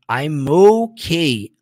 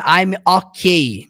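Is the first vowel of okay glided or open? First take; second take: glided; open. First: The first vowel of okay glides like 'oh'. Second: The first vowel of okay is an open 'ó'. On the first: The speaker calls it right. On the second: The speaker calls it wrong.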